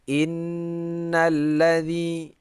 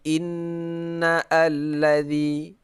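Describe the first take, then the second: First: The words run together without a glottal catch. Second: A glottal catch separates the two words. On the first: The speaker calls it right. "tidak dibaca" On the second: The speaker calls it wrong.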